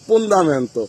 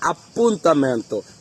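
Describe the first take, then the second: First: It starts with p and has a d sound. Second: It starts with a and has a t sound. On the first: The speaker calls it wrong. "আসলে এটা কিন্তু সঠিক উচ্চারণ না।" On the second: The speaker calls it right. "আসলে অ্যাপয়েন্টমেন্টকে বলে আপ্পুন্তামেন্তো।"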